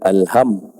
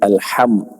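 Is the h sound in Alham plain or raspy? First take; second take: plain; raspy. First: The h is a plain soft h. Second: The h is a raspy throat h. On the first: The speaker calls it wrong. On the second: The speaker calls it right.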